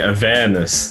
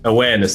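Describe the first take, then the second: First: The word begins with a V sound. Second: The word begins with a W sound.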